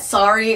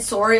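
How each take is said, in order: First: It is said with an American pronunciation. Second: It is said with a Canadian pronunciation. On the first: "sorry is like an American pronunciation of it" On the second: "sorry is probably Canadian"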